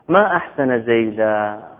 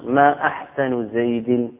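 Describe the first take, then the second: First: The vowel endings make it an exclamation. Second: The vowel endings make it a question. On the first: It expresses wonder at the person's beauty. "هذا تعجب من حسن زيد" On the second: It asks which part of the person is beautiful. "ما استفهامي"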